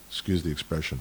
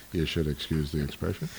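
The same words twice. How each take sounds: First: Said in the usual way. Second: Lower, softer Jackie Mason shrug of a line; tossing off a Yiddish-comic aside like Jackie Mason. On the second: Retold or imitated. Speaker quoting a comic to excuse his word, mock Jackie Mason. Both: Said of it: "as Jackie Mason might say".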